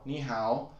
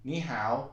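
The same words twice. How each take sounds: No difference in how they are said.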